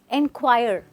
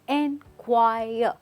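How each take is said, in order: First: The final 're' sound is clearly pronounced. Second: The final 're' sound is barely heard. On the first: The speaker calls it wrong. "a lot of people say enquire, right? That's not the way we say it" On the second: The speaker calls it right. "It's enquire. ... this R E is not really heard"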